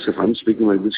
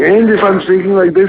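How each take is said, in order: First: It is said without a smile. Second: It is said with a smile.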